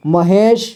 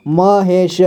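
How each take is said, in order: First: Said in the usual way. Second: महेश split as म, हे, श; syllable by syllable. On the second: Shown as a demonstration. Teacher showing learners महेश, sounded out in parts. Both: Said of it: "इसे पढ़ेंगे".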